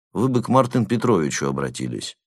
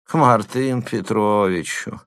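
First: Said in the usual way. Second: Slow drawn-out Мартын Петровичу. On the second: A narrator's reading. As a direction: stretch out Мартын Петровичу slowly. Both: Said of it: "проговорил протяжно".

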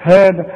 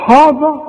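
First: "هذا" with a thin, fronted "hae" vowel; correct light ha. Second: "هذا" with a thick, dark "haw" vowel, high and loud; wrongly heavy ha. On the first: Teacher giving the student the right, light ha. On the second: Teacher mimicking a student's error, overly heavy ha. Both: Shown as a demonstration. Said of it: "هذا ولا هذا؟".

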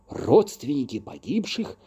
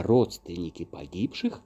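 First: Startled echo, rising into a question; exclaiming in surprise. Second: Said in the usual way. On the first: A narrator's reading. Two accused men echo the fairy's verdict, exclaiming. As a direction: throw it back as a higher-pitched exclamation. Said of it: "воскликнули мы одновременно с Лином".

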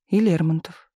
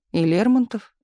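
First: Said in the usual way. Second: Disbelieving. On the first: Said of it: "кивнул Кирилл". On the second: Acted. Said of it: "не поверил Миша".

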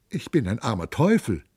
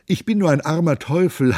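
First: Whining. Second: Bawled plea. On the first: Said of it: "jammerte Gymnastes". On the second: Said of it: "Da plärrte Gymnastes". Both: Acted.

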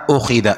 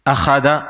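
First: أخذ said "ukhidha"; changed first vowel. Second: أخذ said "akhadha"; fatha on hamza. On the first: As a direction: start أخذ on "u", then "i". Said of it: "حصل تغيير هنا". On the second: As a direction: open أخذ with an "a" sound. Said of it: "الهمزة مفتوحة". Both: Shown as a demonstration.

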